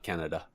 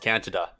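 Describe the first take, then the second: First: The first syllable sounds like the word can. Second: The first syllable sounds like the word can't.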